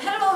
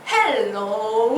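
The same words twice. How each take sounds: First: The word is said at a normal quick pace. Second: The word is said slowly and drawn out. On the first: This is how it usually sounds to a listener. "보통 헬로우 이렇게 들릴 텐데" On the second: After speed-listening practice, normal speech felt slow. "내 느낌에는 헬로우 이렇게 들리는 거예요"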